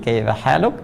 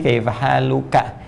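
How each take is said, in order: First: The phrase ends on a consonant, vowel dropped. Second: The phrase ends with a final vowel sound. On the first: "karena ujungnya dibaca mati" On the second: "Kalau laki-laki kaifa haluka"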